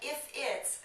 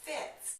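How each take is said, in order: First: Both words are said separately and in full. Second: The words merge into one short syllable.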